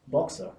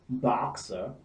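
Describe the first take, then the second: First: The vowel is a short rounded British o. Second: The vowel is an American long open ah. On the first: "You would have shop, fox, boxer" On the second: "So here we have O as in God"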